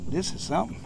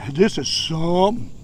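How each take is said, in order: First: Said in the usual way. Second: "This is something" leaned on, rising on "This"; emphasis on something. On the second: Shown as a demonstration. Angler stressing "This is something" over a big crappie. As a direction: put weight into "This is something". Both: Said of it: "You gotta put some emphasis into something".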